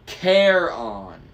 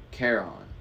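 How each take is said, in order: First: Charon stretched out, high and loud; loud, drawn-out Charon with falling tune; demonstrating the name. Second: Said in the usual way. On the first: A narrator's reading. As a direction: teach Charon slowly as KAIR-on, emphatically. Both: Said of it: "Say it with me".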